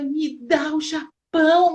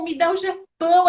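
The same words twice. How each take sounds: First: Louder, slow, insistent plea; fervent retold prayer. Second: Louder, higher, pressing plea; fervent retold prayer, higher. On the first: Mother retells her daughter's fervent prayer, loud and insistent. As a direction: beg like a child claiming a nation. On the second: Mother retells her daughter's prayer, louder and higher on the repeat.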